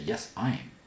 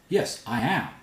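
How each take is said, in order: First: I am is contracted to one syllable. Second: I am is said as two full words. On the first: The speaker calls it wrong. "You don't say" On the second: The speaker calls it right. "When you emphasize, you separate them out"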